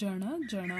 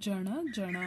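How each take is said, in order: First: The n is said with the tongue curled back. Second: The same.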